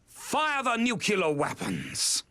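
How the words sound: It is said in an alarming, dramatic way.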